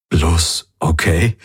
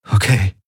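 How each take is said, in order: First: Slow, hurt questioning rise; stung and disappointed, drawn out. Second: Said in the usual way. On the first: A narrator's reading. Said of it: "Er wirkte getroffen".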